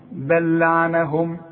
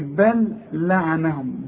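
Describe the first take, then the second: First: The two l sounds merge into one. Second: The two l sounds are said separately. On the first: The speaker calls it right. "يبقى عندي لام واحدة بس" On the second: The speaker calls it wrong. "اوعى تقول لي"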